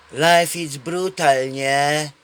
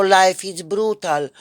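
First: Slow, sighing mockery of a bored young man; imitating a jaded guy, slowly; mock world-weary drawl. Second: Slow, louder ironic echo of the catchphrase; drawn-out mocking repeat; sarcastic echo. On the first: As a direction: drag it out like nothing matters. Same guy quoted again. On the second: Real, not acted. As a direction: throw the phrase back with scorn. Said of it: "mocking the phrase himself".

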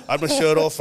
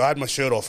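First: "I had my shirt off" said louder, with "shirt" punched; comic repeat with the weight on "shirt"; stress on shirt. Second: Said in the usual way. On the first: Shown as a demonstration. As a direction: lean hard on "shirt" for the joke. Repeating the line for comic emphasis.

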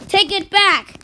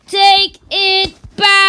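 First: Said in the usual way. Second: Higher, louder insisting; insisting loudly, building up; louder demand. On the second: Acted. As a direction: escalate the demand.

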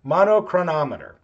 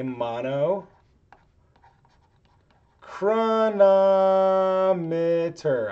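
First: Said in the usual way. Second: Drawn-out, very slow word; saying it slowly. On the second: Real, not acted. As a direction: stretch the word out syllable by syllable. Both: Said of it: "I still have to say that slow".

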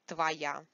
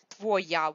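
First: "твоя" said tva-YA, stress on я; "твоя" stressed on the last syllable, first vowel an a; reduced unstressed o. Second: "Твоя" with a clear o in the first syllable; "Твоя" with the unstressed o left unreduced; spelled-out pronunciation. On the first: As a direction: say "твоя" with the o turned into an a. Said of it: "Because the stress is on я". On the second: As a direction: say "Твоя" as written, tvo-YA, with o not a. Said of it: "we just pronounce it твоя". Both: Shown as a demonstration.

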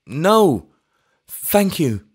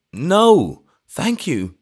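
First: Higher, louder second no thank you; eager vicar repeating himself, high; repeated eager refusal. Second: Put-on high, loud, over-eager old vicar; eager vicar turning down wine, high; hysterically eager refusal. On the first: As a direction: insist again, overeager. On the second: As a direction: rush to refuse, overeager. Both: A narrator's reading. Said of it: "with that hysterical eagerness".

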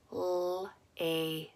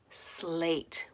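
First: "Slate" quietly split into s, l, long a, t; sound by sound. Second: Said in the usual way. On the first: Shown as a demonstration. Teacher gives sounds to put together, "Slate" segmented. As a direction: gaps between the sounds of "Slate". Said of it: "say the sounds of the word". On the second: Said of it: "you're gonna put it together".

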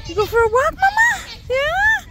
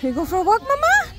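First: Even higher, louder pet voice; squeaky coaxing up to the top. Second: Much higher coaxing pet voice; sing-song to the little dog. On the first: Grandma repeats the walk question even higher in baby talk. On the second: Grandma asks her Chihuahua about the walk in high baby talk. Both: Real, not acted.

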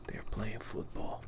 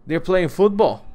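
First: Hushed whisper. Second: Excited. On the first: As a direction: whisper it, hiding from them. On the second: Spotting enemies, excited. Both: Real, not acted.

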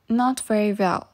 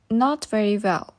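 Both takes have the same delivery.

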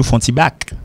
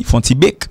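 First: "back" with an open A; open-vowelled "back" closing the phrase; correct vowel demo. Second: "bic" said like "bek" in place of "back"; mispronounced "back", coming out as "bic"; wrong vowel demo. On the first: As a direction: say "font ti back" with "ah" in "back". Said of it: "m'a prononcé back". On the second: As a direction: say "font ti bic" with a closed vowel in "bic". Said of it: "il pas dit bic". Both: Shown as a demonstration.

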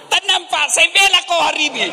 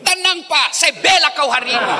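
First: Squeaky high voice begging for calm, with a laugh; mock-frantic husband pleading, way up high. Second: Shouted husband's plea. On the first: Preacher mimics a husband soothing his angry wife, high-pitched. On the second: Retold or imitated. Preacher repeats the husband's plea as a high laughing shout. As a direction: yell it up high like a desperate husband.

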